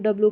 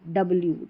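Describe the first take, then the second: First: The letter name is shortened and run together. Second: The letter name is said as full 'double-u'. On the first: The speaker calls it wrong. "ऐसे डब्ल्यू डब्ल्यू करके पढ़ा जाता है" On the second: The speaker calls it right. "डबल यू को मिलाकर हमारा बना डब्ल्यू"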